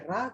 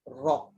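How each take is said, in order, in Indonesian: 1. Bunyi r ringan, dengan vokal terbuka. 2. Bunyi r berat, dengan vokal membulat. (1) "Jangan baca" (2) "kena baca"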